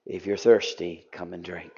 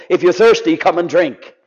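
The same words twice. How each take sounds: First: Low, hushed, intimate invitation; quiet declaration. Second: Mild call across the crowd; crying out. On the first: Jesus at the feast to the crowds, hushed and gentle. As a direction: lean in and offer it softly. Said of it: "he declares to them all". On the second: Jesus standing, crying out to people, lightly raised call. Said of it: "he's crying out to people". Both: Acted.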